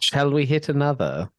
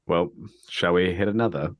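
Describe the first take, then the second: First: The voice is clear, not into a bottle. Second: The voice is muffled, spoken into a bottle.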